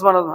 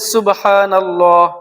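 First: The word is said quickly and rushed. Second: The word is said slowly and carefully. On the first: The speaker calls it wrong. "এক কথায় তারা সঠিকভাবে উচ্চারণগুলো করেও না" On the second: The speaker calls it right. "একটু সময় নিয়ে প্রথমে যখন বলেন সুবহানাল্লাহ একটু সময় নেন"

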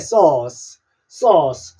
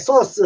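First: The vowel is drawn out long. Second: The vowel is said short and clipped. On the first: The speaker calls it right. "길게 소스 그렇게 얘기해 주시고" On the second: The speaker calls it wrong. "짧게 소스 하지 말고"

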